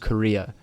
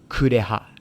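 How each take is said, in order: First: The name is said without a middle h sound. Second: The name is said with a middle h sound. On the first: The speaker calls it wrong. "which is wrong" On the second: The speaker calls it right. "It's Kureha"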